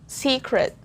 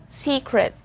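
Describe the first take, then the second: Both takes have the same delivery.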